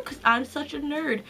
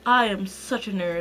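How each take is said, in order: First: High voice. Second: Said in the usual way. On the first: Real, not acted. Admitting to being a book nerd, high excited voice. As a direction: still raised in pitch, softer after a squeal. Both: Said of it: "My voice got really high there".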